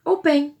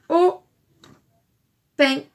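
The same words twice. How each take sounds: First: Said in the usual way. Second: "au", long pause, "pain", each alone; loud "au", a gap, then "pain"; split into syllables. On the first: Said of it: "pour faire le". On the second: Shown as a demonstration. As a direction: say "au pain" as two separate syllables. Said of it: "le début de homard".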